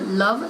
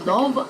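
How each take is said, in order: First: The vowel is said the southern British way. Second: The vowel is said the northern British way. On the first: "the uh sound, the love sound" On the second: "becomes love"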